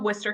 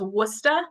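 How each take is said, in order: First: It is said in a general accent. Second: It is said in a Boston accent, dropping R. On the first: "that is how you pronounce that word" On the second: "just with the Boston accent, we don't really say our R's"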